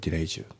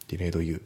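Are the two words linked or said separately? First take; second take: linked; separate. First: The two words are linked together. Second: The two words are said separately. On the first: The speaker calls it right. "delayed you のところがリンキングで" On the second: The speaker calls it wrong. "じゃなくて"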